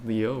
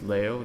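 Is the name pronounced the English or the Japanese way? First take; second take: English; Japanese. First: The name is said with English pronunciation. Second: The name is said with Japanese pronunciation. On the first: "which is sort of the English pronunciation" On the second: "that would be the Japanese pronunciation"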